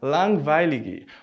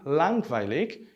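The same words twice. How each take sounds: First: The word ends with an added vowel sound. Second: The word ends on a consonant, no vowel. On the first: The speaker calls it wrong. "provavelmente você leria langweilig" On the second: The speaker calls it right. "note que eu não produzo esse som ao final"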